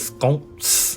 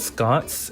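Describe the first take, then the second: First: The word is said in a British accent. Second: The word is said in an American accent. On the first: "I can only say them in a British accent" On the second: "if I were to say it in an American accent"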